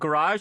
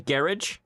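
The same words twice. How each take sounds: First: It is said with an American pronunciation. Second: It is said with a British pronunciation. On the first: "instead of garage" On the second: "how the British say garage"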